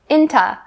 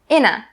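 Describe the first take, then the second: First: The t stays but the last vowel is reduced. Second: The t is dropped, leaving a reduced ending. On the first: "change into to inta, inta. This is the typical way that native speakers say this" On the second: "for the very last way, you can say inna"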